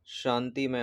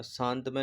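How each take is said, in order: First: शांतिमय said as 'shaanti-may' with an i after t; right spelling said aloud: शांतिमय, 'shaantimay'; correct form. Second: शांतमय said as 'shaant-may' with no i; wrong spelling said aloud: शांतमय, 'shaantmay'; wrong form. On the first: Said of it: "शांतिमय होता है". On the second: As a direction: say शांतमय the wrong way, without the i after t. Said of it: "शांतमय नहीं होता है". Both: Shown as a demonstration.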